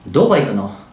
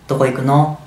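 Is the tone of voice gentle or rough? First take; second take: rough; gentle. First: The question is spoken in a harsh, rough tone. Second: The question is spoken in a soft, kind tone. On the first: It leaves the listener with a bad impression. The speaker calls it wrong. "仮にこの3 つを乱暴な口調で言うと" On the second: It leaves the listener with a good impression. The speaker calls it right. "これを優しい口調で言うと"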